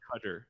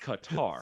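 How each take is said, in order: First: The last syllable has a reduced 'uh' vowel. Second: The last syllable has an open 'ah' vowel. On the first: The speaker calls it wrong. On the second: The speaker calls it right. "It's tar. It's not tur"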